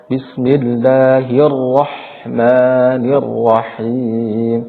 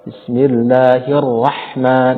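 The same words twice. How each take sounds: First: "Bismillahirrahmanirrahim" very slowly chanted with thick, rounded "ro". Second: "Bismillahirrahman" drawn out with a thin "rah"; thin ra mistake. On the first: Teacher showing the correct way, thick ra. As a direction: recite "Bismillahirrahmanirrahim" drawn out, each ra heavy. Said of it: "ra dibaca tebal". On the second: Teacher showing the reading that is wrong, thin ra. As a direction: recite "Bismillahirrahman" slowly with flattened, thin ra. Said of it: "itu bacaan yang, yang salah". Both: Shown as a demonstration.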